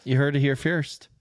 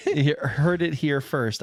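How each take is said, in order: First: "first" mispronounced as "feerst"; tongue-tied "feerst" for "first"; slip of the tongue. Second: Said in the usual way. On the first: Real, not acted. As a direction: say "first" with a long ee, like "fierce" plus a t. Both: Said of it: "I can't speak today".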